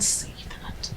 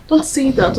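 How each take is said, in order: First: Slow, gentle whisper. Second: Said in the usual way. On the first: Acted. Ogechi soothing her mourning friend, gentle whisper. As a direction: hush her softly and slowly.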